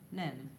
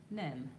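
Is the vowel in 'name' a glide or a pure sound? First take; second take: pure; pure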